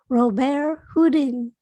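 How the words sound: The name is pronounced the French way.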